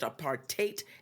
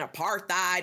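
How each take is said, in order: First: The last syllable sounds like the word 'hate'. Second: The last syllable does not sound like 'hate'. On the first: The speaker calls it right. "you pronounce it apartheid, and you remember hate is the root of that" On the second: The speaker calls it wrong. "they were saying apartheid"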